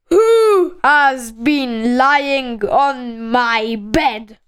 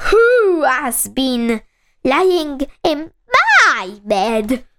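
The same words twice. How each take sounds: First: Slow, booming bear demand; very loud Father Bear. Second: Slow, lightly voiced medium-sized bear; Mother Bear. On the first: Father Bear asks who lay on his bed, very loud voice. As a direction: draw it out big and loud. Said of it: "in a very loud voice". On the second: Mother Bear asks who lay in her bed, medium-sized voice. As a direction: stretch the question at a moderate volume. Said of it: "in a medium-sized voice". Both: A narrator's reading.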